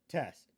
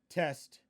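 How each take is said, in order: Both takes have the same delivery.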